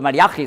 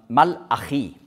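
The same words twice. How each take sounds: First: The name is pronounced the German way. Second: The name is pronounced the Hebrew way. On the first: "so sagt man das eben auf Deutsch ausgesprochen" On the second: "aber Hebräisch, da sagt man Malachi"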